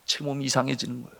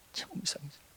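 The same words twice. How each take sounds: First: Said in the usual way. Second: Very soft, almost whispered echo; barely voiced aside; hushed repeat. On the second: Real, not acted. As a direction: drop to a hush for suspense. Hushed repeat of strange sensation.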